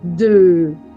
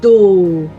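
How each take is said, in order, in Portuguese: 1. A vogal é um 'e' com os lábios arredondados. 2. A vogal é um som 'o' simples. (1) "Boca de O com o som E" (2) "Cuidado para não falar O"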